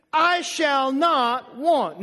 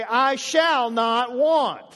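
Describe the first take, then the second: First: Drawn-out "I shall not want" for the church to echo; slow call to repeat. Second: Put-on drawn out to the kids; slow, emphatic "I shall not want". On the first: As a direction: lead the congregation slowly. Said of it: "Say that with me". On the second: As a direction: say it slowly to your kids. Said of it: "and say". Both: Shown as a demonstration.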